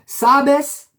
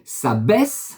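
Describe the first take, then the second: First: The stress is on the first syllable. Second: The stress is on the last syllable. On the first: It means 'you know', singular. "par occiton" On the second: It means 'you know', plural. "Je le mets à la fin"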